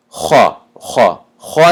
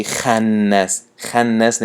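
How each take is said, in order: First: خا as a heavy "kho", carried into a long خناس; full-mouthed kha. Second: خناس with a thin, light "khæ"; empty-mouthed kha. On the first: («خناس» бо даҳони пур, «хо»-и ғафс) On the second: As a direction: say خناس wrongly, kha fronted and unfilled. («خناس» бо даҳони холӣ, хои тунук) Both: Shown as a demonstration.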